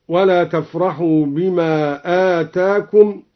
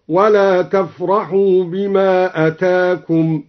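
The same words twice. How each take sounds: First: Said in the usual way. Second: أتاكم said as "atakum" with a short first vowel, slowly; slow tartil, أتاكم as atakum; short hamza in أتاكم. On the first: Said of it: "قرأ بقصر الهمزة". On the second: Shown as a demonstration. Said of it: "قرأ بقصر الهمزة من أتى بمعنى جاء هكذا". (أتاكم بقصر الهمزة)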